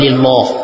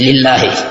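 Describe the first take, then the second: First: The L in Allah is heavy and thick. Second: The L in Allah is light and thin. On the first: The speaker calls it wrong. "Bukan lillah" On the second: The speaker calls it right. "harus tipis lillahi"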